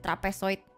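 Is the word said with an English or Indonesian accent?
Indonesian. It is said with an Indonesian pronunciation. "if I want to Indonesia-fy it, I go like"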